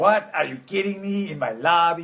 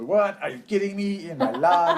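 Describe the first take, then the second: First: Lightly voiced movie Dracula line, a bit higher; a hint of the hotel vampire's outrage; quoting a cartoon vampire. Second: High, loud mock outrage, breaking into a laugh; imitating a cartoon vampire. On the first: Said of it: "you know, Hotel Transylvania". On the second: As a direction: ham up the vampire's indignant cry. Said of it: "my son looks at me and goes".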